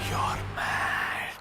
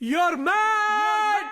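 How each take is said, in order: First: It is said at normal, softer volume. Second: It is said louder and more forcefully.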